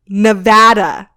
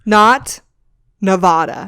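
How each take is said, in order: First: Nevada is said the way locals say it. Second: Nevada is said the way outsiders say it. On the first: This is how people from the state say their name. The speaker calls it right. "This is how you say it" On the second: This is how people from elsewhere say the name. The speaker calls it wrong. "that made me cringe just saying it"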